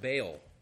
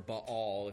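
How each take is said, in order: First: The name has its common, everyday pronunciation. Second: The name has a scholarly, learned pronunciation.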